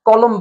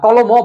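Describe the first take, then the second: First: The word ends on the consonant m. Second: The word ends with an added o vowel. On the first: The speaker calls it right. "মর পরে অ না থাকার কারণে তুমি শব্দটা কলম বলেছো" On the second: The speaker calls it wrong. "কলমও বলো নাই"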